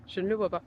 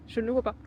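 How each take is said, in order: First: Whispered with a laugh. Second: Said in the usual way. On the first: Real, not acted. Repeats line, second time whispered.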